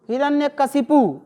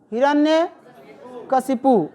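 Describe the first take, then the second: First: Said in the usual way. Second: Hiranyakashipu spelled out slowly, each syllable clear; drawn-out dictation of Hiranyakashipu. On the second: Shown as a demonstration. (धीरे-धीरे उच्चारण)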